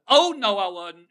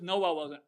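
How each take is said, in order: First: "Oh, no" thrown high and loud; stress on the Oh. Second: Said in the usual way. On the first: Shown as a demonstration. A member's emphatic denial with a big "Oh" in front, loud and high. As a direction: start "Oh" much higher and louder, then drop for "I wasn't". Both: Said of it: "She put the O in front of that".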